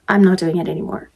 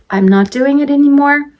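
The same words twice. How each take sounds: First: Said in the usual way. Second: High, held last word; singsong refusal. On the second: Real, not acted. Mom swearing off store trips with twins, singsong. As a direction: chant the refusal in a raised singsong.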